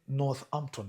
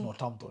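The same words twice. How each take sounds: First: It is said in a polished, British-style accent. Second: It is said in a plain local accent. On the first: The speaker calls it right. "you are Northampton" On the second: The speaker calls it wrong. "not Northampton. I mean, use the right English"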